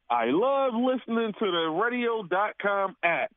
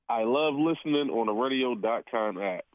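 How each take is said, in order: First: It is said in an excited, lively way. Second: It is said in a plain, calm way.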